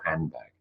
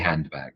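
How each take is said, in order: First: An m sound comes before the b. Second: A clear d sound comes before the b. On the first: The speaker calls it right. "or the m" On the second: The speaker calls it wrong. "I say de, I say handbag"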